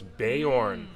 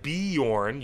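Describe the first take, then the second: First: The first syllable sounds like 'bay'. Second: The first syllable does not sound like 'bay'. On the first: The speaker calls it right. "Bay is for Beorn. Ah, so it's Beorn" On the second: The speaker calls it wrong. "It's not Bjorn. You've been saying it wrong"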